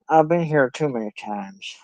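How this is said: It is said in a put-on character voice. The speaker calls it right. "I was doing the voice for Jay"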